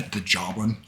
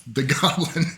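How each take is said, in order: First: "joblin" with a soft J to start; mispronounced goblin. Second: Said in the usual way. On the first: Real, not acted. Game master tripping over a word, "joblin" said with J. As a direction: stumble into "joblin" with a J sound. Slip corrected on the next words.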